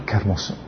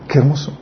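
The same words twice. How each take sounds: First: A soft, reverent murmur, much quieter; hushed awe. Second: Said in the usual way. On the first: Real, not acted. Preacher marveling quietly at God's promise, hushed and soft. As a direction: breathe it out in wonder.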